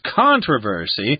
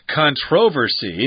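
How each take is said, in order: First: The word uses the American pronunciation. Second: The word uses the British pronunciation. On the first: "American is controversy" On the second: "I think that's the British pronunciation"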